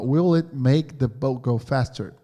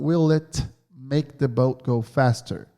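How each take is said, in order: First: The phrase is read at a normal speed. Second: The phrase is read more slowly.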